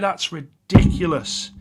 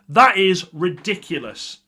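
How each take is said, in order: First: It is said with scornful, disgusted disapproval. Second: It is said with amazed, admiring praise. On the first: Something was shockingly bad. "It's all in the delivery of how you say it" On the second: Something was impressively good. "ridiculous at United, but in a positive way"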